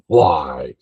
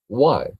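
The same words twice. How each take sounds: First: "Why?" said with a strongly aspirated breathy hw onset, mocking; exaggerated hw in why. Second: "Why?" said like the letter Y, no h breath at all; plain y sound. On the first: Family teasing him by overdoing the hw in "Why?". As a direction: blow a heavy h before "Why?". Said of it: "And they accentuate it". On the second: Shown as a demonstration. Asking how others say it, "Why?" with no h. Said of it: "So how would you say it?".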